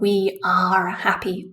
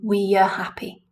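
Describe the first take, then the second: First: The word are has a full vowel. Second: The word are is reduced to schwa. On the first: The speaker calls it wrong. "Not we are happy" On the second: The speaker calls it right.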